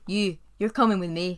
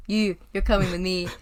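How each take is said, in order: First: Louder, fuller Scottish Shrek voice; better Scottish accent. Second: Put-on loud, rough Scottish accent as Shrek; terrible Scottish accent. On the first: Retold or imitated. Host redoes Shrek's line, better Scottish accent. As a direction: nail the Scottish growl this time. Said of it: "that's very good". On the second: Host retries Shrek's line, weak Scottish accent. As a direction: another go at a bad Scottish growl. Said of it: "That's a terrible Scottish accent".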